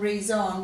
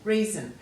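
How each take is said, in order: First: The last syllable has a clear 'on' vowel. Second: The last syllable is reduced to a schwa. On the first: "you'll hear the O N" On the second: "many of us give it a schwa sound"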